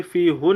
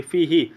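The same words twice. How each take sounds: First: फीहू ending in a long "oo"; wrong vowel. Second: फीही ending in "ee"; kasra on pronoun. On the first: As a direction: say फीहू with -hoo in place of -hee. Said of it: "यहाँ पे फीहू नहीं पढ़ेंगे". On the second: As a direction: say फीही with -hee after the long ee. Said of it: "फीहू नहीं पढ़ेंगे". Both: Shown as a demonstration.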